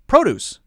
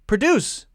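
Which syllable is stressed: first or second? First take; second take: first; second. First: The stress is on the first syllable. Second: The stress is on the second syllable. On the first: It is used as a noun. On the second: It is used as a verb. "verb, second syllable is stressed"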